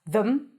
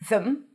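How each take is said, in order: First: It has a th and a reduced schwa. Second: It has a th and a reduced schwa.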